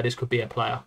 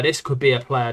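First: Much softer, to himself; quiet. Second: Said in the usual way. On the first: Real, not acted. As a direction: murmur it softly. Repeats the musing to himself.

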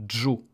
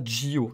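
First: "jo" as one syllable, dj then o; "jo" in a single beat; fused syllable. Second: "jio" said as ji-o; "jio" in two beats; two syllables. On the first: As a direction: drop the i, just "jo". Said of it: "ça fait jo". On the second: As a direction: keep a separate i in "jio". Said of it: "ça ne fait pas jio". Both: Shown as a demonstration.

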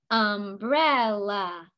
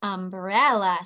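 First: "Umbrella" slowly, in three separate beats: um-brel-la; split into syllables. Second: Said in the usual way. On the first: Shown as a demonstration. Teacher tapping the head for each part, "Umbrella" syllable by syllable. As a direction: draw out each part of "Umbrella", one beat per tap. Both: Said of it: "say the parts of umbrella".

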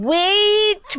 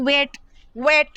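First: ওয়েট stretched slowly on a long vowel glide; drawn-out vowel. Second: ওয়েট said with a short, quick vowel; short single vowel. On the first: Teacher lets students hear two vowels, ওয়েট drawn out long. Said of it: "একটা vowel নয়, দুটো ভাওয়েলের একটা mix". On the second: Teacher rules out the wrong spelling, ওয়েট with short vowel. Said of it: "এটা তো একটা vowel হলো". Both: Shown as a demonstration.

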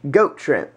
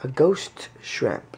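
First: "Goat" with a hard g and a crisp t, no s; punchline "Goat shrimp" with a hard t; joking goat. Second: "ghost" said slowly with a clear hard g and a full st; slow, deliberate "ghost shrimp"; careful ghost. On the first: Pretend. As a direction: tease by saying "Goat shrimp" as if that were the name. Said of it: "No, I want a goat shrimp". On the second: Shown as a demonstration. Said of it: "Oh, I thought you said ghost shrimp".

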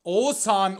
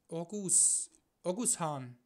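First: "Oğuzhan" loud, with silent g, like "Oosahn"; corrected pronunciation. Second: "Orgus Hahn" with a hard g, as two separate words; clumsy German reading of "Orgus Hahn"; mispronounced name. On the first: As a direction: proclaim "Oğuzhan" with a long O and no g. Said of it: "was hab ich da gelabert". ("Oğuzhan" laut mit langem O, stummem g) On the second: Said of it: "wie schlecht war das gesagt". ("Orgus Hahn" falsch, mit hartem g ausgesprochen) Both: Real, not acted.

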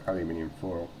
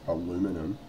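First: Said in the usual way. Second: "aluminum" said the American way, a-LOO-mi-num; "aluminum" in four syllables, stressed on LOO; American pronunciation. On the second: Shown as a demonstration. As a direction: say "aluminum" as Americans do, without the extra i. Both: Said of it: "as the Americans incorrectly pronounce it".

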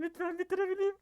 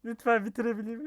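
First: Much higher, desperate plea; high pleading. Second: Pleading. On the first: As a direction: beg in a high voice. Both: Real, not acted. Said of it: "bunu sığırlarla hardcore için yapıyorum".

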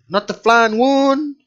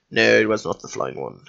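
First: "not the flying one" slowed, rising into a question. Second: Much lower, softer flat answer; deadpan self-answer. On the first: Player trying to remember a character, questioning "not the flying one". Asks himself, then answers the question. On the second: Player answering his own question, low deadpan. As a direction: drop low and quietly settle the question. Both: Shown as a demonstration.

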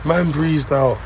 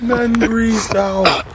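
First: Said in the usual way. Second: Slow, high, stretched-out delivery; drawn out. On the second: Acted. Host savouring the boyfriend running off, in a slow drawn-out voice. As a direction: drag every word for effect. Repeats the line, first drawn out.

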